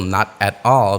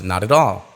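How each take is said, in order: First: Each word is said separately. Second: The words flow together in one stream.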